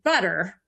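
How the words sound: American accent, with the final R pronounced. "If you're an American, you'll say butter"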